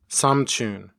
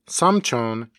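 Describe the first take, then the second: First: The last vowel is pronounced as u. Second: The last vowel is pronounced as o. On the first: This is the usual Seoul-area pronunciation. "is usually pronounced as samchun" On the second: This follows the spelling. "the word for uncle, samchon"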